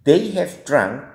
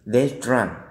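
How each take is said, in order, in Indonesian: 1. Kata have diucapkan lengkap. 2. Kata have disingkat menjadi 've'.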